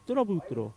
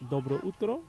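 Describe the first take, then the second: First: The two words are squeezed into one. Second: The two words are said separately. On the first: "that's the way I say it here" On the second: "dobro utro is the way the Bulgarians say it"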